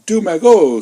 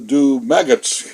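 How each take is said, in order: First: The name is said with French pronunciation. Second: The name is said like English 'maggots'. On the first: The speaker calls it right. "you say, say, uh, uh, do magot" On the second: The speaker calls it wrong. "c'est pas do maggots"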